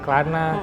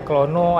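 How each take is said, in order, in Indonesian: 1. Namanya diucapkan dengan vokal 'a'. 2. Namanya diucapkan dengan vokal 'o'. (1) "ada yang bilang Klana" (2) "ada yang bilangnya Klono"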